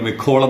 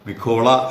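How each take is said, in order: First: The name ends on a consonant sound. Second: The name ends on a vowel sound. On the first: This is the form people commonly heard. The speaker calls it wrong. "നമ്മൾ മിഖോൾ എന്നാണ് കേട്ടിരിക്കുന്നത്" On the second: This is the actual pronunciation of the name. The speaker calls it right. "മിഖോള എന്ന് തന്നെയാണ് അത് ഉച്ചാരണം"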